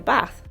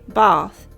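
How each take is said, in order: First: It is said with a northern English accent. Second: It is said with a southern English accent.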